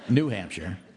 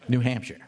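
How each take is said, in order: First: The stress falls on the word New. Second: The stress falls on the word Hampshire. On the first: It contrasts with an old Hampshire. The speaker calls it wrong. "Not New Hampshire" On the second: It is simply the name of the state. The speaker calls it right. "That's the way it's said"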